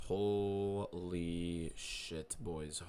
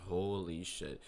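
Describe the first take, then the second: First: A very slow, stretched-out Holy shit; drawn-out amazement. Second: Said in the usual way. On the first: Real, not acted. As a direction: let the holy hang in disbelief. Streamer stunned by follower count.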